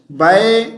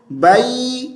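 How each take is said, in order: First: بئی said "bae", ending on an open e; wrong glide. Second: بئی said "bayee", higher, closing firmly to ee; correct glide. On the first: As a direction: slacken the end of بئی to e. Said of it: "this is wrong". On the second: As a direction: hold the final ee of بئی. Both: Shown as a demonstration.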